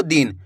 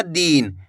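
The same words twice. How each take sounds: First: दिन with a short, quick i; short vowel. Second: दिन with a long, drawn-out ee; stretched vowel. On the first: Teacher showing students the correct reading, short vowel in दिन. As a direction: say दिन without stretching the vowel. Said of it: "इसी तरीके से पढ़ना आपको". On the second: Teacher showing students what to avoid, stretched vowel in दिन. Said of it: "ज़्यादा खींच के नहीं पढ़ना". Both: Shown as a demonstration.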